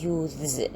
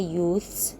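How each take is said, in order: First: The th changes to a voiced sound before s. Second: The th keeps its voiceless sound before s. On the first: It is the morphophonemic plural. "by changing the th into the" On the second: It is the regular plural. "only by adding the s plural without changing the th into another sound"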